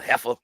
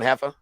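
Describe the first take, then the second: First: It is said with a disgusted, hostile tone. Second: It is said with a warm, friendly tone. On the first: It is meant as an insult. "Say it in a bad way" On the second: It is meant as a friendly greeting. "try it by shaking somebody's hand"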